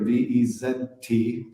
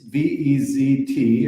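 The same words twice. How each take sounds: First: The letter Z is spoken as zed. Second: The letter Z is spoken as zee.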